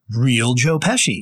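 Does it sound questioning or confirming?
confirming. It sounds like a confirming answer.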